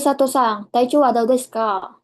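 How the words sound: It is spoken in a hard, harsh voice. The speaker calls it wrong. "ada juga yang paling keras ... kurang sopan"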